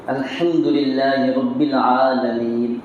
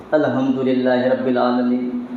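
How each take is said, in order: First: Very slow "الحمدللہ رب العالمین" with the ha clearly breathed from the throat; correct recitation. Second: "الحمدللہ" with a careless, blurred ha sound, a bit slower; wrong recitation. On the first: Preacher demonstrating the proper pronunciation of "الحمدللہ", slow and precise. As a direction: carefully articulate each letter of "الحمدللہ", the ha distinct. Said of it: "ہا نکلنا ہے صحیح ڈھنگ سے".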